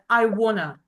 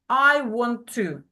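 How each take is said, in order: First: The words blend together into "wanna". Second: Each word is said fully and separately. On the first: "natural form, connected speech version" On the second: "slow, full form, just model the formal version"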